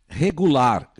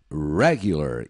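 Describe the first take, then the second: First: The stress is not on the first syllable. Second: The stress is on the first syllable. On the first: This is the Portuguese word. "Se escreve igualzinho a português" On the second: This is the English word. "a pronúncia em inglês é na primeira sílaba"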